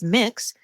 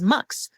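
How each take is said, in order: First: The vowel sounds like the one in 'mix'. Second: The vowel sounds like the one in 'mux'. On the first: "some people pronounce M X as mix" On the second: "some people pronounce M X as mux"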